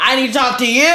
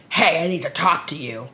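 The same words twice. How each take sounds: First: Much louder, higher retold demand; insistent repeat. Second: Retold casual opener, only a touch louder; casual approach. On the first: Friend repeats himself after being ignored, loud and insistent. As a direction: act out a friend loudly insisting. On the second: Friend approaches her at the bar, casual first try.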